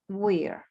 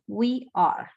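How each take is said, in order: First: The verb is contracted onto the pronoun. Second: The verb is said as a separate word. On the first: "In the short form" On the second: "la forma correcta para contractar, para conjugarlo es are"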